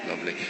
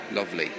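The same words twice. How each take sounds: The two takes are said the same way.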